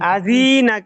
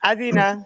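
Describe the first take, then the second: First: The zi syllable is drawn out. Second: The zi syllable is said quickly. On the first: The speaker calls it wrong. "জি তো টান হবে না" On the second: The speaker calls it right. "তাড়াতাড়ি"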